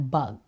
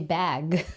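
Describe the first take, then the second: First: "bug" with a short u as in cup; the wrong bug. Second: "Bag" with a flat American æ vowel, stretched. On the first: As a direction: say "bug" like the insect. ("bug" na parang insekto) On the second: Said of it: "No, you have to say". ("Bag" na may Amerikanong tunog ng a) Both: Shown as a demonstration.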